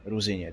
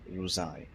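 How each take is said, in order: First: The name is pronounced in the native Czech way. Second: The name is pronounced in a garbled, anglicized way. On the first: The speaker calls it right. "instead of saying Ruzině" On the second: The speaker calls it wrong. "they say Ruzai, and it makes my ears bleed"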